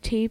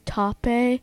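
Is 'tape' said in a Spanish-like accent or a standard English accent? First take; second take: standard English; Spanish-like. First: The word is said in a standard English accent. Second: The word is said in an imitated Spanish accent. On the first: "instead of saying tape" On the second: "they say tape"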